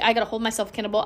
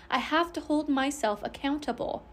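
First: Fast, with "accountable" blurred so it sounds like "cannibal"; slurred accountable. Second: "accountable" fully enunciated, the t clearly sounded, softer; careful re-say. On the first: Real, not acted. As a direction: rush "accountable" so its middle t drops out. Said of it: "I just said accountable. I'm not a cannibal". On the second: Shown as a demonstration. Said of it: "I just said accountable".

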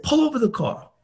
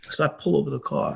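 First: High-pitched, heated command; mock-angry order, pitched well up; retold angry order. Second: Said in the usual way. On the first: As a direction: imitate an agitated demand to stop. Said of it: "a guy in rage".

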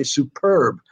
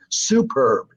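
First: "superb" stressed on the second syllable, su-PERB; natural word stress. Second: "superb" slowed, stressed on the first syllable, SU-perb; wrong-syllable stress. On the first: Writer showing how you say it, "superb" stressed on PERB. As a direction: put the weight on PERB in "superb". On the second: Writer showing how you don't say it, "superb" stressed on SU. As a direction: put the weight on SU in "superb". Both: Shown as a demonstration. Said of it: "So the emphasis there".

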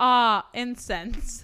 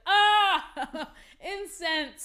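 First: Slow loud savouring sigh; drawn-out bliss. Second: High laughing delight; blissful sigh. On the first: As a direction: stretch it out in bliss. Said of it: "my shit should be screaming". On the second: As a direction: savour it with a laugh. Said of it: "the other times you're like". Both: Retold or imitated.

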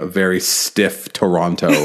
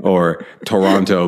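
First: "Toronto" said stiffly and slowly, every syllable crisp. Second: "Toronto" drawn out slowly in a mean Oklahoma accent; slow, hard Oklahoma twang on "Toronto". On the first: Mimicking the umpire's stiff "Toronto" on the loudspeaker. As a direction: spell out "Toronto" slow and rigid. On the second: Mocking an umpire's mean Oklahoma "Toronto". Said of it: "a mean Oklahoma accent". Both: Shown as a demonstration.

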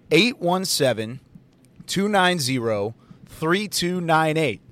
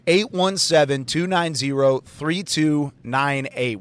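First: Digits spaced out slowly; slow dictation. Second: Slow, clear digits; repeat dictation. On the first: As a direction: read the number so they can write it. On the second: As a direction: repeat it for people at home. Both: Shown as a demonstration. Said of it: "I'll say it one more time".

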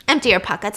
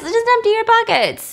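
First: Said in the usual way. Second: Empty said high and loud, almost squeaky; hammed-up shrill order; captain taunting John to empty pockets, high and loud; high mock captain voice. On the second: Captain mocks, pushing John.

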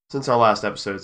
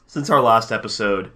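First: Hiccup breaks the line; talking through hiccups. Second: Said in the usual way. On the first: Real, not acted. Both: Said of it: "sorry, I have the hiccups".

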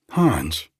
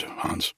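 First: Louder call across the room to Hans. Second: Unvoiced whisper of the name Hans; whispered call. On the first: Acted. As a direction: summon the servant with a loud call. Josie calling the servant. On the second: Josie calling the servant back.

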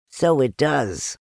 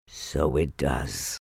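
First: Higher, slow small-animal voice; Piglet. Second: Low, soft, slow bear voice; Pooh. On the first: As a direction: draw it out high, marvelling. Piglet's take against Pooh's. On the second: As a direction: marvel slowly, low and soft. Pooh's take against Piglet's. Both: A narrator's reading.

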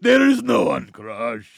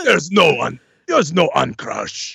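First: Higher, louder mock brute voice; imitating Crusher. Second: Slow, heavy brute line; Crusher voice. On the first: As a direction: echo the line as a hammy giant. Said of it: "I fucking love that bit". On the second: Acted. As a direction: deliver it like a dim giant. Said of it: "in character as Crusher".

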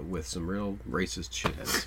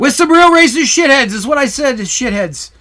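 First: Low, slow, soft delivery; too quiet. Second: Much higher, booming projection; exaggerated loud repeat. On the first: Real, not acted. Co-host casually describing the era to the other host, too quiet. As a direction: quietly trail along, barely projecting. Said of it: "You're so quiet". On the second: Shown as a demonstration. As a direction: belt it out so nobody can miss it. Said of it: "you need to talk like".

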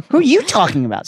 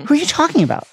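First: "you" punched high in an incredulous comeback; stress on YOU. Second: High-pitched, lovesick bafflement; baffled question. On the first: Harry to Ron as reason drops away, incredulous stress on "you". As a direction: throw the question back, leaning hard on "you". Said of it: "with an increasing sense that all reason had dropped away". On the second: Ron blinking at Harry, clueless and high-pitched. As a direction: ask it high, honestly lost. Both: A narrator's reading.

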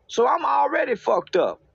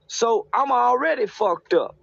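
First: Emphatic raised voice. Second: Said in the usual way. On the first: Real, not acted. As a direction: hammer the line home. Repeated punchline, raised emphatically.

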